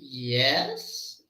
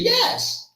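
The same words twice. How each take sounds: First: It sounds like an uncertain, doubtful yes. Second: It sounds like a genuine, agreeing yes. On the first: The speaker is not sure. "when the yes means I don't know or I'm not so sure" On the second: The answer is really yes. "that means yes"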